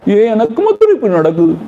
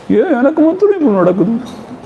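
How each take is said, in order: First: Fast, higher mock complaint of self-pity. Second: Much higher, whinier mock lament; exaggerated self-pity. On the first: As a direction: whine quickly, as if only you suffer. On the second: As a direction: push it up into an over-the-top whine. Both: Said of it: "sympathize means".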